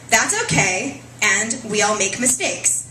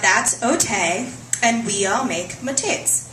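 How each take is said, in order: First: The words are spoken clearly and normally. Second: The words are slurred, as if half-paralyzed. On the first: "her two lines are" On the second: "written out phonetically as one might pronounce them were one's face half paralyzed"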